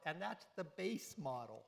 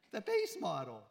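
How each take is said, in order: First: Said in the usual way. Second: THE BASE MODEL, much louder, for effect; emphatic repeat. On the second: Acted. Preacher repeats the car's price point, louder. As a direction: hammer home how pricey.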